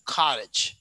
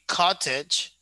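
First: American "cottage", T flapped like a quick D; American pronunciation. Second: "cottage" slowly with a clear T; standard-form "cottage", T fully sounded; standard pronunciation. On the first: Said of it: "So we pronounce like". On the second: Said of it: "it's the standard". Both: Shown as a demonstration.

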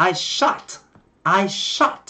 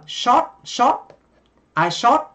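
First: "shot" with an open vowel between ah and o; "shot" American-style, half ah, half o; correct American o. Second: Vietnamese rounded o in "shot", pitched up; Vietnamese accent. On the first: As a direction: open "shot" toward "shaht". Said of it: "chính xác thì là". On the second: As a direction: say "shot" like a rising Vietnamese "sót". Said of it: "người Việt chúng ta sẽ phát âm âm O". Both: Shown as a demonstration.

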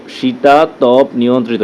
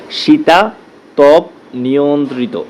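First: Said in the usual way. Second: Slow, syllable by syllable শীতাতপ নিয়ন্ত্রিত; broken into syllables. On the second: Shown as a demonstration. Teacher to students, showing the spelling, slow and syllable by syllable. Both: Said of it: "সিলেবলটা ভেঙে".

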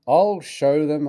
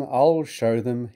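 First: Hissed. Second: Hissed, quieter. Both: A narrator's reading. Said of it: "he hissed".

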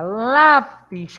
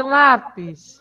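First: "lápis" with a long, weighted LÁ; stress on first syllable. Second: Said in the usual way. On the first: Shown as a demonstration. Teacher gives class the next word, stressed "lápis". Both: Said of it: "Qual a sílaba tônica de lápis?".

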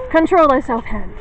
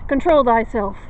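First: Louder, mock-stern order; stern command. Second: Said in the usual way. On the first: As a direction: scold the shaky hand. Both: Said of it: "Okay, hand".

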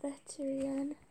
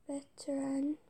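First: "Veteran" misspoken as "vet-ree-an"; stumbled pronunciation. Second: "Veteran" carefully said as "vet-er-an"; "Veteran" in three parts, "vet-er-an"; careful second attempt. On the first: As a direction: slip an extra "ee" into "Veteran". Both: Real, not acted. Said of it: "I can't say that".

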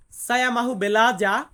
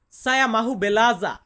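The two takes are said the same way.

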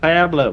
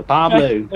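First: "Pablo" with a flattened first A; attempted accent pronunciation. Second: "Pablo" with an open first A; second accent attempt. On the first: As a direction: say "Pablo" with the first vowel as in "pack". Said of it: "That's so hard to say". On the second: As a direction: say "Pablo" with the first vowel as in "father".

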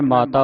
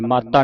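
First: ਮਾਤਾ with a soft, single t; soft pronunciation. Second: ਮਾਤਾ with a hard, doubled t, maattaa; hard pronunciation. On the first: Teacher showing students how to read it, soft pronunciation. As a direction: say ਮਾਤਾ lightly, no doubled consonant. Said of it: "ਇਸ ਨੂੰ ਪੋਲਾ ਉਚਾਰਨ ਕਰਨਾ ਹੈ". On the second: Teacher showing students what not to say, hard pronunciation. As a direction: lean on the t in ਮਾਤਾ. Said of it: "ਮਾਤਾ ਨਹੀਂ ਬੋਲਣਾ". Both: Shown as a demonstration.

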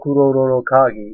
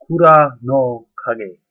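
First: Kuroro Kagi, run together with no separate "no"; common misnomer. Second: Kura no Kage in three slow, separate words, KURA loud; correct pronunciation. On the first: Explaining the popular misreading to viewers, common mispronunciation. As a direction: say Kuroro Kagi as people miscall it. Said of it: "what is being called". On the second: Teaching viewers the correct name of the item, careful pronunciation. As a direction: slowly model Kura no Kage, stressing Kura. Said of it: "is actually more correctly pronounced". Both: Shown as a demonstration.

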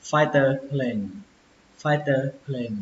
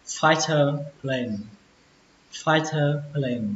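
First: "fighter plane" at normal speed with a clear t; second reading. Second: "fighter plane" slowly, stress on "fighter"; deliberate teacher reading; slow model reading. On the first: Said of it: "Cách đọc thứ hai". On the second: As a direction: read "fighter plane" at half speed. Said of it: "Từ đầu tiên". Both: Shown as a demonstration.

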